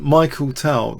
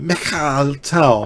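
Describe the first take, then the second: First: The first name has an English pronunciation. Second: The first name has a Russian pronunciation. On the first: The speaker calls it wrong. "I don't mean Michael Tal" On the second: The speaker calls it right. "Russian pronunciation"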